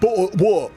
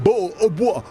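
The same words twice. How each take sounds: First: It is said in the daughter's mock English accent. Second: The same.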